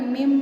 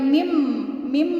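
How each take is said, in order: First: The lips close lightly with a vibrating m. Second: The lips press hard on the m. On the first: The speaker calls it right. "bibirnya terasa bergetar" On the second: The speaker calls it wrong. "bukan mim mim bukan"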